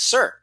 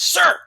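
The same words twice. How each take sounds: First: It is said a little louder. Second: It is said as a yell.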